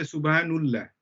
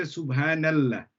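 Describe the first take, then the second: First: "Subhanullah" with an oo vowel before "llah"; "Subhanullah", u in place of a before the double l; damma ending. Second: "Subhanallah" with an open ah before "llah"; "Subhanallah", a clear a before the double l; fatha ending. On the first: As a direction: say "Subhanullah" as soob-haa-NOOL-lah. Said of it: "We don't say Subhanullah". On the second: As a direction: say "Subhanallah" as soob-haa-NAL-lah. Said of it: "Ah, fatha". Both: Shown as a demonstration.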